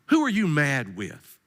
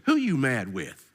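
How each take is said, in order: First: "who" leaned on, the question drawn out slowly; slow stress on who. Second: Said in the usual way. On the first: Real, not acted. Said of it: "repeated question, slower". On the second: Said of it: "repeats the question slower".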